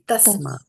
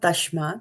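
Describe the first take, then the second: First: The first consonant cluster has a plain 's' sound. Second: The first consonant cluster has an 'sh' sound. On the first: The speaker calls it right. "this is a simple S ... it will be tasma" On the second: The speaker calls it wrong. "So this is not tashmat"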